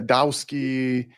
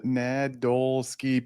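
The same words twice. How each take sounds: First: "Nadowski" with the L dropped, said as na-DOW-ski; wrong pronunciation. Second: "Nadolsky" said slowly, syllable by syllable: na-DOL-sky; correct pronunciation. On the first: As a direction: mispronounce "Nadowski" with no L in the middle. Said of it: "people screw it up". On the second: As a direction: spell out "Nadolsky" slowly with the L and S clear. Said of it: "even though it looks phonetic". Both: Shown as a demonstration.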